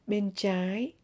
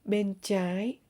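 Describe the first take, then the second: No difference in how they are said.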